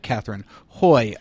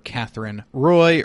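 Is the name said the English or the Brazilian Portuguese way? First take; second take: Brazilian Portuguese; English. First: The name is said the Brazilian Portuguese way. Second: The name is said the English way.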